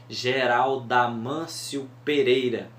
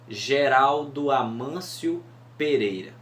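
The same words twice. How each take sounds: First: The two meeting vowels are merged together. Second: The two meeting vowels are kept apart. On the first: The name fits seven syllables. The speaker calls it right. "quando o O se juntam com o A no Geraldo" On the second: The name runs past seven syllables. The speaker calls it wrong. "se a gente falar dando essas pausas"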